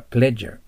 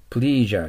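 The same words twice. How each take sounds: First: "pleasure" with a short e, as PLEZH-er; short "eh" in the first syllable of "pleasure"; correct pronunciation. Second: "pleasure" with a long ee, as PLEE-zher; mispronunciation. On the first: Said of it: "喜ばせるだけ伸びます". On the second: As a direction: stretch the first vowel of "pleasure" like "please". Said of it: "pleasureじゃない". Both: Shown as a demonstration.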